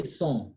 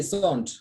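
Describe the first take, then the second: First: SON with a nasal vowel and silent T; correct French pronunciation. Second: SONT with the final T sounded; wrong pronunciation. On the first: French teacher corrects student's reading, correct nasal "son". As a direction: say "son" without sounding the final T. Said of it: "We say son". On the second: French teacher shows student the mistake, wrong pronunciation of "sont". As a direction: say "sont" with N and T pronounced. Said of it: "You cannot say sont". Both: Shown as a demonstration.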